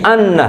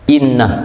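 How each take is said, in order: First: The word begins with an a vowel. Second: The word begins with an i vowel.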